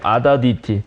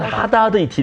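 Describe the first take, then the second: First: The name begins directly with a vowel sound. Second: The name begins with a light h sound.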